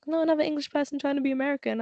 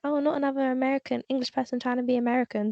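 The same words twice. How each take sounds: First: Rushed mocking stranger's jab; fast dismissive quote. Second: Rattled off, quick and dismissive; quick sneer at a wannabe American; fast dismissive quote. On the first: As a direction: fire it off quickly with a sneer. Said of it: "He was like". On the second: Retold or imitated. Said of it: "them being like".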